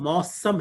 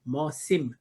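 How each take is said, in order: First: The second syllable has an 'a' vowel. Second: The second syllable has an 'i' vowel. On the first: This is the usual Urdu form. "हम सीन पे ज़बर के साथ पढ़ते हैं" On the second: This is the original Arabic form. "असल जो लफ्ज़ अरबी से आया है ... मौसिम। सीन पे ज़ेर है"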